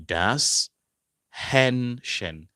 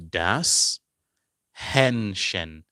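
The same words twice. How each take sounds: The two takes are said the same way.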